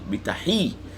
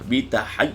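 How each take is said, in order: First: The last vowel is a plain short 'hi'. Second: The last vowel glides like 'hai'. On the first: The speaker calls it right. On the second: The speaker calls it wrong. "tak boleh baca bitahai"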